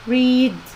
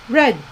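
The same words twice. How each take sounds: First: It is pronounced as the present-tense form. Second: It is pronounced as the past-tense form. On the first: It is the base form of the verb. "They are written the same, but is pronounced as read" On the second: It is the past form of the verb. "but we say it as read"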